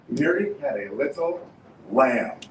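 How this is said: The stress is on lamb.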